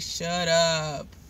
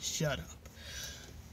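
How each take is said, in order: First: It is said in her normal voice. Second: It is said in a deep grown-man voice.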